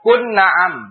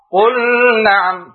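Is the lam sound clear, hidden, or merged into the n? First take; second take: merged; hidden. First: The lam merges fully into the following n. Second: The lam is hidden and blurred before the n. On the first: "Jangan diidghamkan" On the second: "Atau diikhfakan"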